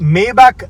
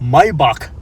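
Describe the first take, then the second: First: The first syllable sounds like 'may'. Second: The first syllable sounds like 'my'. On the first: This is the English pronunciation. "ഇംഗ്ലീഷിലാണെങ്കിൽ മേബാക്ക് എന്ന് പറഞ്ഞാലും മതി, പെർഫെക്റ്റ് ആണ്" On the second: This is the German pronunciation. "ജർമ്മനിൽ മൈബാക്ക് എന്നാണ് പറയുക"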